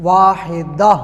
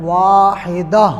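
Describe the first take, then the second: Both takes have the same delivery.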